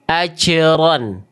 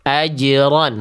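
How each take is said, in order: First: The j sound is released with a breathy puff. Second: The j sound is released dry without breath. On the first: The speaker calls it wrong. "Karena terpercik nafasnya. Ada percikan nafas" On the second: The speaker calls it right. "tidak ada percikan nafasnya... Bunyinya kering"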